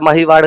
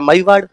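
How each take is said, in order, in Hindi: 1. बीच की 'h' ध्वनि साफ़ बोली जाती है। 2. बीच की 'h' ध्वनि गिर जाती है। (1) "माहीवाड़ माहीवाड़ माहीवाड़ करते करते" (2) "हो गया मईवाड़"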